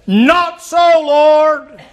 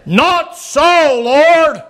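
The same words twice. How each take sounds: First: Peter's protest. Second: Peter's protest again. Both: Acted.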